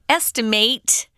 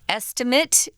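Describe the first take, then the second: First: It is said with the verb pronunciation. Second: It is said with the noun pronunciation. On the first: It names the act of guessing. "and estimate is the verb" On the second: It names a guess as a thing. "Estimate is the noun"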